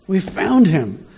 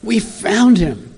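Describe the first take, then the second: First: Higher, eager announcement; excited discovery. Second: Higher and slow, savouring the news; excited, drawn out. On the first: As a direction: tell them you found him, thrilled. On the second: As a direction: stretch out the thrill of finding him. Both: Acted. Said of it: "I can hear the excitement".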